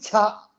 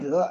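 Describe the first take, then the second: First: The final word is pronounced qia. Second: The final word is pronounced zhe. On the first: This is the ancient reading, which rhymes. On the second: This is the modern reading, which does not rhyme.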